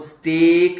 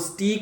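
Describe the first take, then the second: First: The vowel sounds like 'ay'. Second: The vowel sounds like 'ee'. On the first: The speaker calls it right. "लेकिन आपको rule पता लग गया है तो आप इसको स्टेक ही बोलिएगा" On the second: The speaker calls it wrong. "अगर आपको रूल ना पता होता तो आप इसको स्टीक भी बोल सकते थे"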